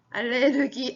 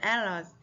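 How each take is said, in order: First: It is said with Korean loanword pronunciation. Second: It is said with English pronunciation. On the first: The speaker calls it wrong. "발음이 알레르기 아니고요" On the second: The speaker calls it right. "allergy라고 하죠"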